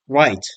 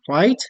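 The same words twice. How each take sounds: First: The pitch falls at the end of the word. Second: The pitch rises at the end of the word. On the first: It confirms or agrees. "if we pronounce it with a falling uh, pitch or a falling intonation" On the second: It asks a question or invites the other to continue. "If we pronounce right with a rising pitch or a rising intonation"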